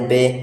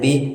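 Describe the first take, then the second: First: The vowel is a mid 'ay'-like sound. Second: The vowel is a high 'ee'-like sound. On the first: The speaker calls it wrong. "ये आपका मजहूल है, इससे हम लोगों को बचना है" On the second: The speaker calls it right. "मारूफ कैसे पढ़ना है? ... इस तरह पढ़ना है"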